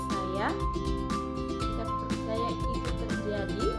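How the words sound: Hesitant pitch rising at the end, sounding confused. "bingung atau nada ragu-ragu dan naik di akhir"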